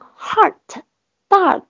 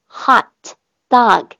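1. hot里的元音带有卷舌色彩。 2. hot里的元音是干净的开口 ah 音。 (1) "有同学发成heart dog，这个肯定是错的，因为你有儿音了" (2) "没有那个儿化的儿音才是正确的元音……发啊hot dog 就结束"

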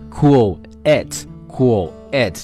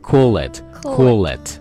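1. 这两个词是分开读的。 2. 这两个词是连在一起读的。

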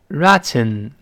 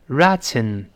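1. t完全通过嘴巴释放。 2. t完全通过嘴巴释放。

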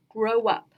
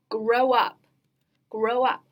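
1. 一个 w 音把 grow 连到 up 上。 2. 这些词是分开说的。

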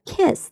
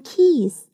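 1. 这个元音短而松弛。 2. 这个元音长而紧张。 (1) "比较松弛的一个e 的发音" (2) "千万不要发成kiss，否则就变成你在跟你的孩子要钥匙了"

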